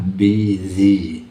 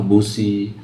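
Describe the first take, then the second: First: The word is said with a z sound. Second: The word is sounded out like its spelling. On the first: The speaker calls it right. "bunyi yang benar adalah busy, S-nya juga nggak bunyi S itu, tapi bunyi Z" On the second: The speaker calls it wrong. "Dibacakan seperti tulisan"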